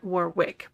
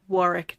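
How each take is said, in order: First: The middle W is pronounced. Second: The middle W is silent. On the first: The speaker calls it wrong. "not Warwick" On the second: The speaker calls it right. "but Warwick"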